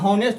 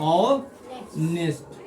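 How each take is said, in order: First: The word begins with an h sound. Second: The word begins directly with a vowel sound. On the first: The speaker calls it wrong. "हॉनेस्ट से पढ़ रहा था" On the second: The speaker calls it right. "ऑनेस्ट पढ़ा जाता है"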